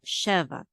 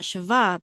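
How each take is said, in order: First: The stress is on the first syllable. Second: The stress is on the last syllable. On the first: The speaker calls it right. "the trope mark is on she" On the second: The speaker calls it wrong. "not sheva"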